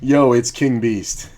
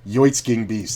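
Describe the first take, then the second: First: It is said as a plain English phrase. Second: It is run together like a Swedish-sounding name.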